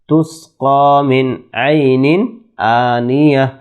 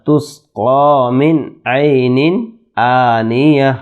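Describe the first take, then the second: Both takes have the same delivery.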